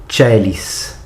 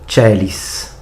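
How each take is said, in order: Both takes have the same delivery.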